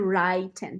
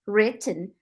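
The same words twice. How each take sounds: First: The first vowel is a gliding diphthong. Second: The first vowel is a short plain vowel. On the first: The speaker calls it wrong. "então não pode ser written" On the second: The speaker calls it right. "written tem dois T's"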